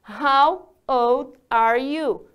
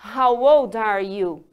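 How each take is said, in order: First: The question is said at a slower pace. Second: The question is said at a faster pace.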